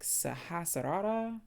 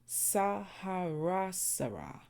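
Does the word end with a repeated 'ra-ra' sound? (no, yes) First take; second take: yes; no. First: The word ends with a repeated 'ra-ra' sound. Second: The word ends with a 'sa-ra' sound instead. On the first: The speaker calls it wrong. "I was saying something like Sahasrara, Rara, because like it says R A, R A" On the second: The speaker calls it right. "But I was told the pronunciation is"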